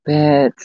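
It is said in a sad tone.

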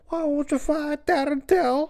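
It is spoken in a thick, mumbled way.

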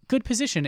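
It is said in an approving, praising tone. The player is being told he is already well placed. "his inflection isn't good position"

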